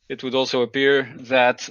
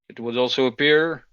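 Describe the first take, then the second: First: It is said in a hoarse, raspy voice. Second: It is said in an ordinary, clear voice.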